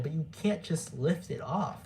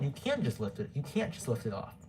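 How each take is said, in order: First: "can't" said clearly and firmly; clear restated. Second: Words slurred by braces; speaking around new braces. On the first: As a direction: repeat it, stressing "can't". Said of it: "it's hard to understand it". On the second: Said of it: "Sorry if my braces are making me, uh, it's hard to understand it". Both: Real, not acted.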